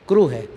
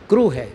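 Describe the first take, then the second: Both takes have the same delivery.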